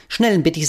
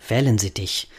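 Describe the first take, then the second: First: "Schnellensittich" said with Schn- instead of W-, higher; the bird proudly garbles "Schnellensittich"; a confident wrong "Schnellensittich"; mispronounced Wellensittich. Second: Said in the usual way. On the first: Acted. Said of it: "Nicht Schnellensittich". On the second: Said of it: "sondern Wellensittich".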